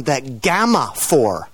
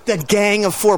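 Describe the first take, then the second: First: "Gang of" run together as GAMMA; misheard band name. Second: GANG OF FOUR with "Gang of" as separate words; intended band name. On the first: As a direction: swap the NG for an M, "Gamma Four". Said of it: "somebody listening to you thought you called them". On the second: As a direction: sound the NG in "Gang", then "of". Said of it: "thought you called them the Gamma Four". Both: Shown as a demonstration.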